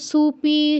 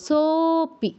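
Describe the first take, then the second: First: The first syllable is su. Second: The first syllable is a long so. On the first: The speaker calls it wrong. "কেউ সুপি ... এগুলো বলবো না" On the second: The speaker calls it right. "সোপি বলবো"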